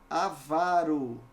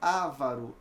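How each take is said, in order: First: The stress falls on the second-to-last syllable. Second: The stress falls on the first syllable. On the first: The speaker calls it right. "Paroxítona terminada em O" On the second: The speaker calls it wrong. "não é ávaro"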